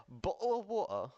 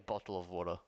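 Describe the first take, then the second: First: Higher British-accented demo; put-on British accent. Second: Said in the usual way. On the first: Shown as a demonstration. Australian streamer showing chat a British version, put-on British accent. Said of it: "I mean, I could say". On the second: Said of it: "no, I'd say bottle of water".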